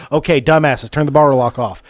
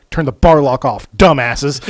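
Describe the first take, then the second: First: Loud retold scold; mock scolding. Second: Loud, gruff scold. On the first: The narrator retelling Joey's line to the crew, loud mock scold. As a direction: repeat the insult with a grin. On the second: Retold or imitated. Joey scolding the guys who can't start the chainsaws, loud. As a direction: bark it at the clueless guys.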